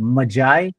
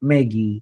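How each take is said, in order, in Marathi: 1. शब्द 'eye' आवाजाने संपतो. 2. शब्द 'ee' आवाजाने संपतो. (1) "त्याच्याप्रमाणे याचा उच्चार होईल मजाय" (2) "पोरांनी असं जे आहेत ना प्रयोग केले"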